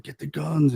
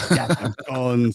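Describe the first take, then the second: First: Said in the usual way. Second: Drawn-out mock Austrian accent; slow, hammed-up Austrian action-hero line; Arnold Schwarzenegger. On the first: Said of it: "a man shouting". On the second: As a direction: joke Austrian accent, vowels stretched. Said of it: "Was it Arnold Schwarzenegger?".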